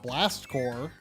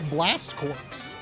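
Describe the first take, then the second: First: The second word sounds like core, no final sounds. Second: The second word sounds like corpse, with final ps. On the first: The speaker calls it right. "the correct correct pronunciation" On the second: The speaker calls it wrong. "you would think it's Blast Corpse"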